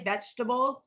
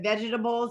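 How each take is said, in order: First: The word is said with three syllables. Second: The word is said with four syllables. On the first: "the shortcut that most people say" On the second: "equally correct ... all four syllables"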